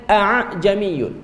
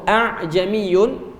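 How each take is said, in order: No difference in how they are said.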